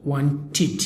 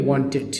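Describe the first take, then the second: First: ওয়ান্টেড ending in a light tid; ওয়ান্টেড ending in tid, not ted; correct pronunciation. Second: ওয়ান্টেড ending in a full ted; wrong pronunciation. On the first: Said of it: "but আমরা উচ্চারণ করব". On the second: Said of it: "অনেকেই বলবে ওয়ান্টেড". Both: Shown as a demonstration.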